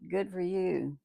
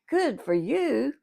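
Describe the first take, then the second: First: It is said in a calm, plain tone. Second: It is said in an excited, lively tone. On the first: The listener takes the success for granted. "he just takes it for granted" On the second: The listener is genuinely thrilled by the news. "then there's excitement"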